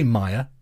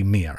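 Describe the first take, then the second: First: The first vowel sounds like 'my'. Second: The first vowel sounds like 'me'. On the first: "I say Maya" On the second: "It's probably Mia, actually"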